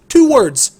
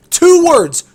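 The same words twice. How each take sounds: The two takes are said the same way.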